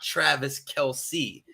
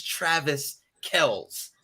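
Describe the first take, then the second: First: Slow, two-syllable KEL-see in "Travis Kelce"; "Kelce" said with an added -see; "Travis Kelce", surname ending like "see"; wrong name pronunciation. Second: Slow, one-syllable Kells in "Travis Kells"; "Travis Kells", surname rhyming with bells; correct name pronunciation. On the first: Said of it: "not Travis Kelce". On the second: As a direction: spell out "Kells" slowly as one beat. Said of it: "pronouncing their family's name wrong". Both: Shown as a demonstration.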